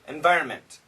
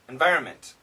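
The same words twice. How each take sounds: First: The N sound is dropped before the M. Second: The same.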